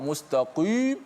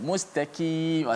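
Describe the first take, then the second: First: The q sound is overly thick and heavy. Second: The q sound is thin, like a k. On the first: "Jangan kita terlalu melampau" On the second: "kita nipis jadi macam kaf pula"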